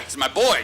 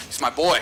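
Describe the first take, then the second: First: Said in the usual way. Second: Laughing. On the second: Real, not acted. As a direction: giggle it out while teasing a buddy. Teasing his friend J P.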